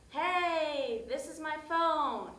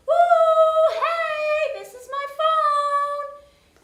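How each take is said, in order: First: Said in the usual way. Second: Very high, loud, drawn-out sung call; high-pitched yelling. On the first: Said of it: "I'm just so tired". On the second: Retold or imitated. High-pitched call to girls holding her lost phone. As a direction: squeal it high and slow so they hear. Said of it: "making all this high-pitched noise".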